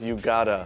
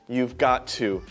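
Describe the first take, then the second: First: Got and to merge into one short word. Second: Got and to are said as two full words. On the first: The speaker calls it right. "It's almost always you gotta" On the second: The speaker calls it wrong. "we very seldom say you've got to"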